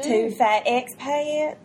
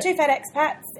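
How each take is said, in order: First: It is said in a Southern US accent. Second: It is said in a New Zealand accent. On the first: "I do a really good Southern accent" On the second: "Your best Kiwi"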